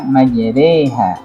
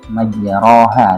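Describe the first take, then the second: First: The vowel after r leans toward e. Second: The vowel after r is a plain a. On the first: This is how the word is actually recited. The speaker calls it right. "Tapi dibaca majreha" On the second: This is how the word is written. The speaker calls it wrong. "tulisannya itu majroha"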